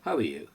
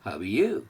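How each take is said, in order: First: It is said plainly, without extra stress on 'you'. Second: 'You' is stressed with a slightly raised pitch.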